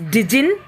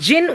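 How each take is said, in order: First: It is said as two syllables, starting with 'di'. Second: It is said as one single syllable. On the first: The speaker calls it wrong. "It should not be pronounced as dijin" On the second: The speaker calls it right. "It should be pronounced as jinn only"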